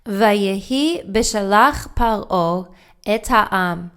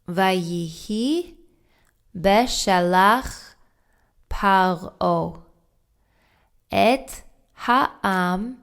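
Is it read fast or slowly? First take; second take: fast; slowly. First: It is read quickly. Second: It is read slowly.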